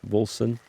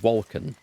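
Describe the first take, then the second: First: The middle consonant is a soft S sound. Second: The middle consonant is a hard K sound. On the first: "Could be Wolson" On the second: "with a hard, hard C"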